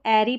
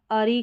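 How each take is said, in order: First: एरी with an open "ai" first vowel; "air-ee" pronunciation. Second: अरी starting on a short schwa; "uh-ree" pronunciation. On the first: Teacher showing learners one of two readings, एरी opened as "air-ee". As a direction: say एरी to rhyme with "dairy". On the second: Teacher showing learners the other reading, अरी with an "uh" start. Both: Shown as a demonstration. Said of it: "दोनों pronunciation होंगे".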